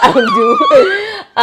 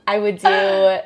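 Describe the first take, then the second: First: Slow, high, put-on Spanish accent. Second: Said in the usual way. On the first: Real, not acted. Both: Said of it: "why am I Spanish accent".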